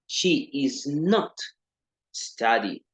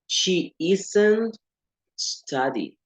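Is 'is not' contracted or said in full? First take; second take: full; contracted. First: The words 'is not' are said separately. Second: The words 'is not' are contracted together. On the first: It is a more British form. "la segunda no" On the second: It is a more American form. "La primera contiene contracción"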